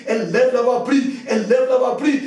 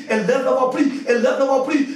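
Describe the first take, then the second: No difference in how they are said.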